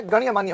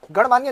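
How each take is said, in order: First: गण्यमान्य with a y after the ण; correct form demonstrated. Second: गणमान्य with no y after the ण; wrong form demonstrated. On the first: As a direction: say गण्यमान्य as "ganya-maanya". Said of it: "गण्यमान्य होता है". (गण्यमान्य में "ण्य" साफ़ बोलें) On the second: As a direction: say गणमान्य as "gan-maanya". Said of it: "गणमान्य नहीं होता है". (गणमान्य में "ण" के बाद "य" नहीं) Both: Shown as a demonstration.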